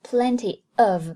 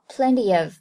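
First: The two words are said without a linking y. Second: A y sound links the two words together. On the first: The speaker calls it wrong. "不读作plenty of" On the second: The speaker calls it right. "而读作plenty of，就是在中间加了一个y 的音"

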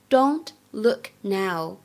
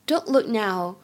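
First: It is spoken slowly and deliberately. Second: It is spoken at a normal speed.

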